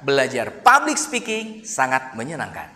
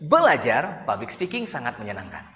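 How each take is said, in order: First: The phrase belajar public speaking is stressed. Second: The word belajar is stressed. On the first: "dikata belajar public speakingnya yang kita tekan" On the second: "kita tekan di bagian belajarnya"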